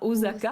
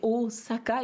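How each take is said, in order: First: The middle consonant is a voiced Z sound. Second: The middle consonant is a voiceless S sound. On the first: The speaker calls it wrong. "et pas Osaka" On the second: The speaker calls it right. "Il n'y a pas de Z en japonais ici, donc c'est, c'est Osaka"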